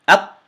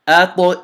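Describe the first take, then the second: First: The final consonant is closed off without a bounce. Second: The final consonant is released with a slight bounce. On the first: The speaker calls it wrong. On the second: The speaker calls it right.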